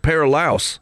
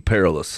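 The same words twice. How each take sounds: First: The last syllable rhymes with 'trout'. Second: The last syllable sounds like 'less'. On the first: "Like trout" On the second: "but it's said the same"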